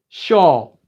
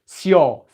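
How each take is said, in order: First: The syllable begins with a sh sound. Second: The syllable begins with a plain s sound. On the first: The speaker calls it right. "shawl with an S H" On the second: The speaker calls it wrong. "not seol"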